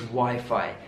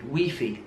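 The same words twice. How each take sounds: First: The word is pronounced the British English way. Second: The word is pronounced in a non-British way. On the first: The speaker calls it right. "In British English, it's Wi-Fi" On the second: The speaker calls it wrong. "I hear a lot of people saying Wi-Fi"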